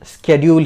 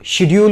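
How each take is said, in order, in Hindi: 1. यह शब्द 'sk' ध्वनि से शुरू होता है। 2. यह शब्द 'sh' ध्वनि से शुरू होता है। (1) "आजकल स्केड्यूल ही बोला जाता है" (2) "पहले शेड्यूल बोला जाता था"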